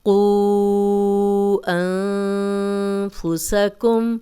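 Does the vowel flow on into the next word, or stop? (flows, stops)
flows. The long vowel is held and runs straight on. "अब चार हरकत किया"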